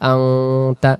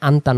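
First: The n is hidden as a nasal sound. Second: The n is pronounced fully and clearly. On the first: The speaker calls it right. "এটা ইকফা নামে একটা নিয়ম রয়েছে" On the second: The speaker calls it wrong. "আনতা না পড়ে"

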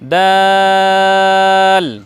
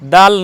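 First: The vowel is drawn out long. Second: The vowel is held short. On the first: The speaker calls it right. "একটু বলতে হবে লম্বা করে" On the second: The speaker calls it wrong. "দাল নয়"

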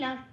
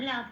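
First: The word ends on a bare consonant. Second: The word ends with a final vowel sound. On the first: The speaker calls it wrong. "লাভ বলতে পারবো না" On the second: The speaker calls it right. "কোনো হসন্ত নেই সেজন্য লাভ বলে বলতে হবে"

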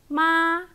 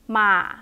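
First: The pitch stays high and level. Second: The pitch is short and low. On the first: "high flat" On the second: "short low one"

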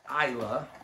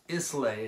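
First: The word is not pronounced the way it is spelled. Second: The word is pronounced the way it is spelled. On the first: The speaker calls it right. "But it's Islay for these type of smoky, peaty scotches" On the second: The speaker calls it wrong. "if you were to pronounce it right from a phonetic English standpoint"

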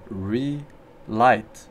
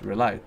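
First: The word is said at a slower pace. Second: The word is said at a fast pace.

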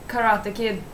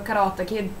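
First: The title is said with an English pronunciation. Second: The title is said with a Swedish pronunciation.

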